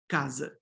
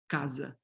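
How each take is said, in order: First: The final vowel is a weak reduced sound. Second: The final vowel is a weak reduced sound.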